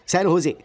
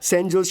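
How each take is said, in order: First: The J is sounded as an H. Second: The J is sounded as a J. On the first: The speaker calls it right. "इसमें जे silent रहता है" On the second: The speaker calls it wrong. "Oh sorry sorry"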